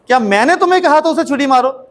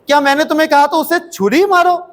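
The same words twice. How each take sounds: First: The stress is on मैंने. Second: The stress is on छुरी.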